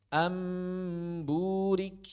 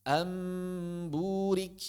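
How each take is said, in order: Both takes have the same delivery.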